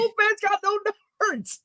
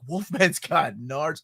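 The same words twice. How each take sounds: First: High mock protest; protesting kid. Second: Slow, measured mock amazement; amazed discovery. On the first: Kid argues about Wolfman's anatomy, high mock protest. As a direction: imitate a kid objecting, pitch way up. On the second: Kid finds Wolfman does have them, slow mock amazement. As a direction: imitate a kid's stunned realisation, drawn out slowly. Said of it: "I love that line, the delivery".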